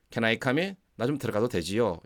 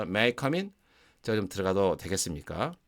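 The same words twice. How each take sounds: First: Easy, familiar ask to come in; casual request. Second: Polite request. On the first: Teacher asking a familiar friend to come in, casually. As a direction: ask like you already know them. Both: Shown as a demonstration. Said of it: "이런 느낌이 강하게 온다는 거죠".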